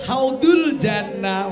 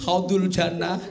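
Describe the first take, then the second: First: Haudul Jannah said slow and loud; emphatic name. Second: Said in the usual way. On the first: Shown as a demonstration. Preacher correcting the mosque name, emphatic. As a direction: stress Haudul Jannah clearly. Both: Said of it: "Haudatul, eh".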